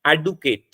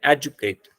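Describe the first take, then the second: First: एडुकेट with a plain d sound before u; American pronunciation. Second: एजुकेट with the d turned into a j sound; British pronunciation. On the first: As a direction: say एडुकेट the American way, hard d in the middle. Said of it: "American इस-, English में इसे बोलते हैं". (एडुकेट, American तरीके से ड की आवाज़ के साथ) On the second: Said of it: "British English में बोलते हैं". (एजुकेट, ब्रिटिश तरीके से ज की आवाज़ के साथ) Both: Shown as a demonstration.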